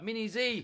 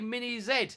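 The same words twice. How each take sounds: First: Z is said the American way, as zee. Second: Z is said the British way, as zed.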